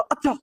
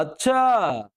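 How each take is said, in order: First: Short, high-pitched "अच्छा"; a quick raised "oh, really?" on "अच्छा"; surprised reaction. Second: "अच्छा" stretched long with a falling end; long, lingering "अच्छा", sliding down; drawn-out अच्छा. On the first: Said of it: "भवें ऊपर चढ़ जाएंगी". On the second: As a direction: draw out the last vowel of "अच्छा". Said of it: "अच्छा लंबा हो जाएगा". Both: Shown as a demonstration.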